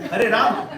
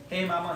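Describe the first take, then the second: First: The words are pronounced clearly with every sound distinct. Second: The words are slurred and the sounds blur together. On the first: The speaker calls it right. "Pronounce clearly" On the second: The speaker calls it wrong. "No, no"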